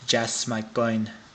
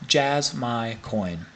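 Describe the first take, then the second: First: It is said with a Spanish-sounding accent. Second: It is said in the speaker's ordinary accent.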